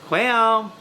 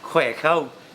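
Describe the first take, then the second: First: It is said in a southern Vietnamese accent. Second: It is said in a northern Vietnamese accent. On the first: "they're going to say Khỏe không" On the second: "Instead of saying Khỏe không"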